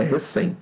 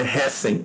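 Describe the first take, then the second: First: "recém" stressed on the last syllable, CÉM; correct stress reCÉM. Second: "recém" stressed on an open first syllable, RÉ; wrong stress RÉcem. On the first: Teacher correcting the word, reCÉM stressed last. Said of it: "é recém". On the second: Teacher showing a wrong paroxytone, RÉcem stressed first. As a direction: say "recém" as RÉ-cem, beat up front. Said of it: "não é recém". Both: Shown as a demonstration.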